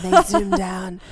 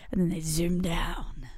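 First: Imitating a wildlife documentary narrator; lightly voiced nature narrator; David Attenborough. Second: Hushed wildlife narrator voice; nature documentary. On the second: Acted. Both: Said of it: "Sounded very like David Attenborough".

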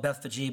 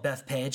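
First: Bethphage said roughly "BETH-fuh-jee"; Bethphage in three syllables. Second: Bethpage said like Beth plus page; Bethpage as two syllables. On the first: Showing how some people call the town, Bethphage as "Beth-fuh-jee". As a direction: end Bethphage on a "jee" sound, not "page". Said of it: "Some people call it Bethphage". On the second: Speaker giving own name for the town, Bethpage as "Beth-page". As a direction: say Bethpage with a plain "page" ending. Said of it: "I call it Bethpage". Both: Shown as a demonstration.

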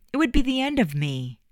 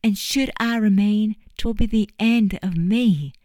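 First: High, heartfelt overstatement; dramatic. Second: High, louder, hammed-up mock tragedy; mocking dramatics. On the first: Acted. Eddie pleading with Juliet not to leave, melodramatic. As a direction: pour it on like a lovesick hero. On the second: Juliet mocking Eddie's dramatic plea, hammed-up and louder. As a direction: throw his melodrama back at him. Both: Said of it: "Eddie and his dramatics".

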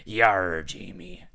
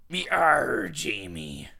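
First: Put-on pirate accent. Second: Loud rising pirate Yarr, then Jamie dropped back down; pirate accent. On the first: Reading the pirate letter again, falling pirate accent. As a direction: growl out a flat, falling pirate Yarr. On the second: Acted. Reading a pirate's letter aloud to Jamie, loud pirate accent. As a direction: belt Yarr like a pirate hailing a ship, rising at the end. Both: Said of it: "it's a pirate accent".

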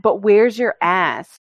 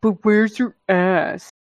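First: Slow, mocking taunt; slow mocking comment aimed at Brazilians; mocking quote. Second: Slow, mocking taunt; slow echo of the rude comment; mocking quote. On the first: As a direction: drawl out the dumb question. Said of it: "they always get the comment". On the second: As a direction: drag the dumb question out.

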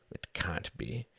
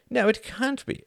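First: Stunned murmur. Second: Emphatic agreement. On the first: Reginald stunned by news. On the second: Runciman answers emphatically. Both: Acted.

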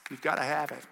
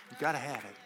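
First: Said in the usual way. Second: Quiet, earnest echo; softer repeat. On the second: Real, not acted. Preacher echoing to the congregation, quietly and earnestly. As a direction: drop it down to press it home. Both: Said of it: "repeats for emphasis".

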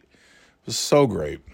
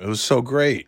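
First: "so" drawn out, stretched and savoured, whole line at half pace; stretched slow emphasis. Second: Said in the usual way. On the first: Real, not acted. Telling a friend about a great night, slow "so" stress. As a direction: lean hard into "so", slowly.

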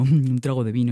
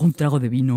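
First: Lower, chuckling repeat; laughing drunkard. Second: Put-on drunkard savouring. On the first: Acted. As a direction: laugh with delight at the promise of wine. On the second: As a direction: lower greedy tipsy voice. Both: Tipsy man hears wine.

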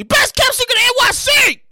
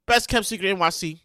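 First: Hyped shout. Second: Said in the usual way. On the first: Shown as a demonstration. Host redoing the shout-out for his friends, hyped shout. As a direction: sell "Best" like a hype man. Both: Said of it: "Let me say that again".

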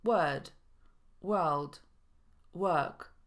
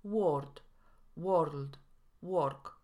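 First: Word, world, work with a long neutral vowel, no r; long schwa. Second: Word, world, work with short o and sounded r; Polish o mistake. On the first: Shown as a demonstration. Teacher modelling example words, word, world, work with long schwa. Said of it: "Długie szła występuje w słowach". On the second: Retold or imitated. Teacher imitating Polish learners, word, world, work with o. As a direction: say word, world, work as a Pole reading the spelling. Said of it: "wrzucamy tutaj samogłoskę o".

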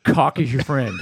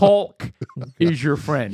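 First: Caulk with the L dropped, like cock. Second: Caulk said with a clear L, kawlk. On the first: Co-host warns him, caulk said like cock. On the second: Co-host asks for the L, careful caulk with L. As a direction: stretch the L in caulk. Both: Shown as a demonstration. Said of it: "make sure you say that L".

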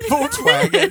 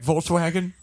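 First: High loud anguished cry; wailing. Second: Said in the usual way. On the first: Pretend. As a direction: wail the name in grief. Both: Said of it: "I'll be like".

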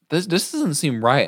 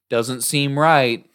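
First: Said in the usual way. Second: Slow dreamy repeat of the words; slow echo. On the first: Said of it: "I was like". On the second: Retold or imitated. Imitating Ellie slowly repeating her friend. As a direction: drag it out like an echo in a trance. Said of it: "she was re-, repeating me".

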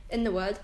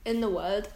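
The two takes are said the same way.

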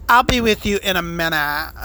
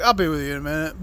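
First: Swishy fey voice. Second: Low, quick mimicry of a waiter; curt waiter. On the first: Retold or imitated. Waiter putting off waiting customers, swishy and fey. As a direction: draw it out in a fey, put-on voice. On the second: Waiter brushing off two waiting customers, curt. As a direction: toss it off low and dismissive. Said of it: "He just came out and was like".

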